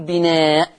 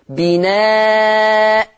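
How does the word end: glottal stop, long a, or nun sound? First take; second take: glottal stop; long a. First: The word ends abruptly on a bare glottal stop. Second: The word ends with a glottal stop and long a. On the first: The speaker calls it wrong. "ولا ينفع أقف بسكون الهمزة وأقول بناء" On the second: The speaker calls it right. "هبدل التنوين المفتوح بألف"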